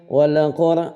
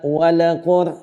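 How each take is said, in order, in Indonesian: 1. Huruf l langsung masuk ke suku kata berikutnya. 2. Vokal tambahan ditambahkan setelah l. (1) "lam jangan dihidupkan" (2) "bukan wala"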